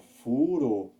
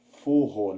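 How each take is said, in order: First: The R is a light single tap. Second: The R is a strong throaty sound. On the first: The speaker calls it right. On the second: The speaker calls it wrong.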